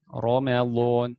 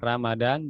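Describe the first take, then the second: First: The r is heavy, with a rounded vowel. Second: The r is light, with a plain a vowel. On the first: The speaker calls it right. "ro bukan ra ya" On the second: The speaker calls it wrong. "Ramadan bukan. Ramadan ya itu bahasa Indonesia"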